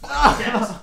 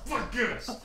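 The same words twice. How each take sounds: First: High, loud cheer; loud celebratory holler; excited echo. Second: High cheer at ordinary volume; small high-pitched whoop; tapering cheer. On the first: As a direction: whoop it right back. Echoes the celebration. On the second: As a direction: squeal it with the volume pulled back. Cheers once more, less loud. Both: Real, not acted.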